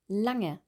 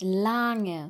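First: The a vowel is clipped short. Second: The a vowel is drawn out long. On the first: The speaker calls it right. "spricht man mit einem kurzen A aus" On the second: The speaker calls it wrong.

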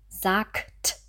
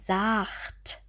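First: The consonant before the t is a k sound. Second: The consonant before the t is a ch sound. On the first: The speaker calls it right. "Vorsicht auch bei dem Wort sagt" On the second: The speaker calls it wrong. "Wir sagen hier nicht sagt"

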